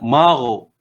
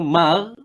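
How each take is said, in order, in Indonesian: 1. Bunyi gh tebal, lidah dinaikkan. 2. Bunyi gh tipis, lidah diturunkan. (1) "Dia kena mar" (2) "Yang tu sifatnya istifal"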